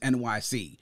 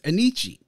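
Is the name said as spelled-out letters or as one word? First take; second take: letters; one word. First: The name is said as three separate letters. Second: The name is said as one flowing word. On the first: It stands for New York City. "the way to pronounce it is NYC" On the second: It is an Italian-style reading of the name. "it was being pronounced as Anichi"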